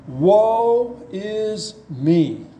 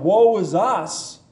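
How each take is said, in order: First: Drawn out very slowly, without hope; a desperate lament, stretching every word; hopeless cry. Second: Slow and lifted with hope; a lament with a glimmer of hope; hopeful cry. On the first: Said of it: "I don't think he had any hope at that point". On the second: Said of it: "now I think he cries out with hope". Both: Retold or imitated.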